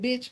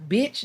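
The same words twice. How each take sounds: First: The word is said lightly, without forceful emphasis. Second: The word is said with heavy, forceful emphasis. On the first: It is a casual, friendly form of address. "I didn't emphasize on bitch" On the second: It is meant as an insult. "not bitch"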